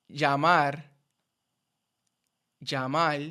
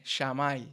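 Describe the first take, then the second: First: Llamar with a y sound; standard pronunciation. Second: Llamar said shamal, sh and final L; mixed accent error. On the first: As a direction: say llamar as ya-mar. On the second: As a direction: mix Argentine sh with Puerto Rican L in llamar. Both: Shown as a demonstration. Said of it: "se convierte en llamar".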